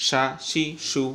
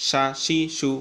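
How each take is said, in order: No difference in how they are said.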